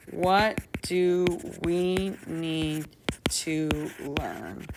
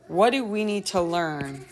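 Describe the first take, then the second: First: WHAT DO WE NEED drawn out word by word; slow repetition. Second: Said in the usual way. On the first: Shown as a demonstration. Teacher repeats the lesson's question while drafting, slow and deliberate. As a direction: stretch out "What do we need to learn" slowly.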